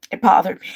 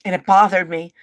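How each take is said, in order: First: Crying repeat of it bothered me. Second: Said in the usual way. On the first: Real, not acted. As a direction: let the grief burst out. Repeats it and breaks down.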